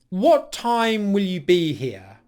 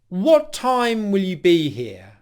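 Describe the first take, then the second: Both takes have the same delivery.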